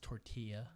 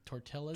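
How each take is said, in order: First: The double L is said as a Y sound. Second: The double L is said as an L sound. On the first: The speaker calls it right. "You got to make the Y sound" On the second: The speaker calls it wrong. "not correctly pronounced"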